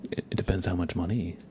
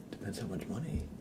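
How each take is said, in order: First: Said in the usual way. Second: Soft unvoiced whispered repeat; whispered aside. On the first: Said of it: "repeated in a whisper". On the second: Shown as a demonstration. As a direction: drop to a hush for the punchline. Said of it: "repeated take".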